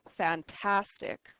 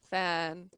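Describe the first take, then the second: First: Said in the usual way. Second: "Fantastic" in three separate chunks, long pauses between; syllable by syllable. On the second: Shown as a demonstration. Teacher showing three syllables, "Fantastic" split by long pauses. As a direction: break "Fantastic" into fan, tas, tic. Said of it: "you need to break up the syllables".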